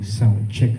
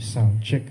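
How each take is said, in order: First: The voice has an added echo effect. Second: The voice is dry with no echo. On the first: "Lagyan natin ng echo" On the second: "yan po yung tunog niya kapag walang echo"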